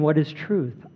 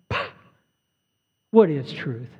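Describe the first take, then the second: First: It sounds like a sincere, genuine question. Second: It sounds scornful, brushing the question aside.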